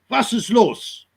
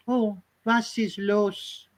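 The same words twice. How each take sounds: First: Harsh German "Was ist los?" with the w as v; German accent. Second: Put-on slow, soft, higher "Oh, was ist los?" in a lilting German accent; soft Frenchified German. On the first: Retold or imitated. Mocking how Germans sound, German accent. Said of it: "German is a strong language". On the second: Mocking New Age Germans, soft lilting German accent. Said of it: "the New Age Germans go".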